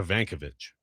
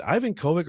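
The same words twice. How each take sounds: First: "Ivankovic" run together as one surname, stressed on VAN; alternative pronunciation. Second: "Ivan Kovic" said like the English name Ivan plus Kovic; first pronunciation option. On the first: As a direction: say "Ivankovic" as ee-VAN-kuh-vitch. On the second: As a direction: say "Ivan Kovic" with an EYE-van start. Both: Shown as a demonstration. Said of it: "is it Ivan Kovic or Ivankovic".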